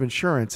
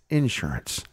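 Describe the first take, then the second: First: The stress is on the second syllable. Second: The stress is on the first syllable. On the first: "Instead of insurance" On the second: "it's insurance"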